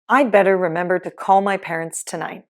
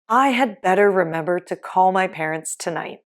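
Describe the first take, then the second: First: The word 'had' is shortened to a 'd' sound. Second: The word 'had' is said in full.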